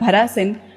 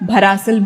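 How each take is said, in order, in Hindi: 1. यह शब्द n ध्वनि से खत्म होता है। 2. यह शब्द l ध्वनि से खत्म होता है। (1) "मगर भरासिन" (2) "बहुत लोग अक्सर बरासिल भरासिल भी कहते हैं"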